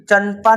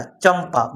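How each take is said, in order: First: "चंपा" said with N, as chan-pa; wrong N sound. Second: "चंपा" said with M, as cham-pa; M sound. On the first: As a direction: say "चंपा" with an n before pa, not m. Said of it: "चंपा नहीं आ रहा". ("चंपा" में म की जगह न बोलकर, चन-पा) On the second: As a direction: let "चंपा" close on an m before pa. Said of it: "माँ का साउंड आ रहा है ना". ("चंपा" में न की जगह म की आवाज़, चम-पा) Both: Shown as a demonstration.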